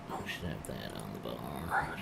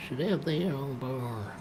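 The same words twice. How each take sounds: First: Whispered to self. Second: Said in the usual way. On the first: Real, not acted. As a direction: breathe it out unvoiced. Muttered to self, unvoiced.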